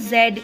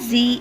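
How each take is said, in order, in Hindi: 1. अक्षर का उच्चारण गैर-अमेरिकी तरीके से होता है। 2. अक्षर का उच्चारण अमेरिकी तरीके से होता है। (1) "in rest of the world" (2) "in U S A"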